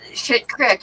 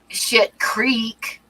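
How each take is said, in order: First: The word is said like crick. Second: The word is said like creek. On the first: The speaker calls it right. "It's shit crick" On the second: The speaker calls it wrong. "You wouldn't say shit creek"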